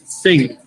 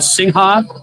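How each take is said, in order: First: No final 'ha' syllable is pronounced. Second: A final 'ha' syllable is pronounced. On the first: The speaker calls it right. "it's actually Sing Sing because the, the ha is silent" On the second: The speaker calls it wrong. "I've been pronouncing the beer wrong"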